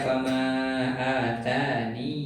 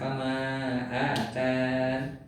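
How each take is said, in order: First: It ends with a long 'ee' vowel. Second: It ends with an 'n' sound. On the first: "ya-nya ditetapkan seperti huruf ya sukun ... dua harokat" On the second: "ya-nya ini dihilangkan"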